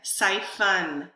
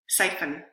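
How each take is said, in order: First: A clear vowel is heard before the final n. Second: No vowel; the final n forms the syllable. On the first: "Hopefully you heard the vowel. I really tried to lengthen it" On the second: "I'm going to try to say it quickly and produce a syllabification"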